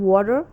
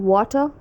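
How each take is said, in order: First: American "water" ending in a full r; attempted American rhotic "water"; American accent. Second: British "water" ending in uh, no r; attempted British r-less "water"; British accent. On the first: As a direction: say "water" American-style, r sounded. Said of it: "and American accent". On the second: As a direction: say "water" British-style, r dropped. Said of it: "the difference between British accent". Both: Shown as a demonstration.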